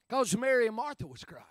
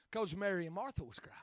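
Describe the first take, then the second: First: Said in the usual way. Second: Soft quick aside; hushed quick line; softer, faster first take. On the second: Shown as a demonstration. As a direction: toss it off quietly. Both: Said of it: "repeated line".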